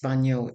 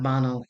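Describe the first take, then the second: First: The middle consonant is an ny sound. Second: The middle consonant is a plain n sound. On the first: The speaker calls it right. "sounds like canyon, yon" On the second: The speaker calls it wrong. "it's not bano"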